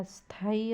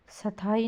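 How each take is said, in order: First: Said in the usual way. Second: स्थाई as "sa-thai", vowel after "s"; misspelling read out. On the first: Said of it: "होता है". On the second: Shown as a demonstration. Teacher showing a misspelling, extra vowel. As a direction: split the "sth" in स्थाई. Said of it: "नहीं होता".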